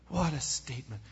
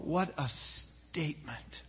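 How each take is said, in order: First: Said in the usual way. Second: Hushed, awed whisper. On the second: Real, not acted. Preacher marveling to the congregation, hushed whisper. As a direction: breathe it out in wonder, almost silent. Awed repeat after the quote.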